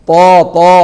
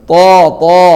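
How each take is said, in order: No difference in how they are said.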